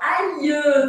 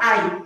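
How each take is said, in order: First: It ends with a clear final y-glide sound. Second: It ends without a final y-glide sound. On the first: The speaker calls it right. "a gente fala aïe, tem que pôr esse no final" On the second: The speaker calls it wrong. "A gente não fala ai"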